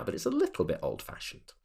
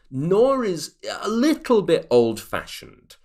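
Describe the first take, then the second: First: Said in the usual way. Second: Mock old-fashioned. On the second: Shown as a demonstration.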